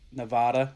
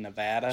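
First: The middle vowel is a broad 'ah' sound. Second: The middle vowel sounds like the 'a' in cat. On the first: It sounds fancier, more Spanish. "Nevada sounds fancier" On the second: It is the usual everyday way. "than Nevada"

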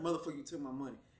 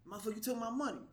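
First: It is said in a serious, threatening tone. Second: It is said in a light, joking tone.

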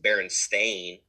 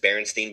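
First: The last syllable sounds like 'stain'. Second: The last syllable sounds like 'stein'. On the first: This is how the name is actually spelled. The speaker calls it right. "it's Stain, not Stein. ... nobody ever pronounced Berenstain" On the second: This is how everyone grew up saying it. The speaker calls it wrong. "it sounds silly to say it that way. It's just Berenstain Bears"

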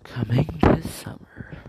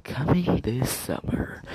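First: It sounds like a soft romantic movie trailer. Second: It sounds like a soft romantic movie trailer.

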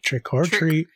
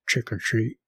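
First: The middle word is a full 'or'. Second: The middle word is reduced to a short 'r'. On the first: This is the title of a different film. The speaker calls it wrong. "Not Trick or Treat" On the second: This is the title of this week's film. The speaker calls it right. "That's apostrophe R"

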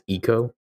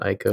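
First: The first vowel sounds like 'ee'. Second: The first vowel sounds like 'eye'. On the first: The speaker calls it right. "It's Ico" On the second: The speaker calls it wrong. "not Ico"

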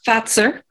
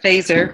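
First: The name is pronounced the German way. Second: The name is pronounced the American way. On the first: The speaker calls it right. "I should say" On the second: The speaker calls it wrong. "instead of Fazer"

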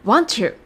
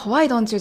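First: The words blend together and sound like 'want you'. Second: Every word is pronounced clearly and separately. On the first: "Want you というふうに今回と同じように聞こえることがかなり多いです" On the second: "発音がWhy don't you? じゃないんですね"

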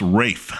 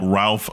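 First: The name is said without L, rhyming with safe. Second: The name is said with an L and F. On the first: The speaker calls it right. "It's Rafe" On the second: The speaker calls it wrong. "Who you called Ralph"

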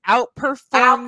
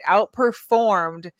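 First: It is said louder. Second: It is said at normal loudness.

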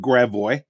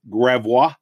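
First: It uses the local St. Louis pronunciation. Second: It uses the pronunciation common in most places. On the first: This is how locals in the city say it. "in St. Louis, we pronounce it Gravois" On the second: This is how most people elsewhere say it. "the most of the world is pronounced Gravois"

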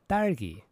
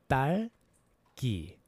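First: The word is said fast. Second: The word is said slowly.

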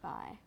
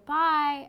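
First: The voice ends on a low pitch. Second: The voice ends on a high pitch.

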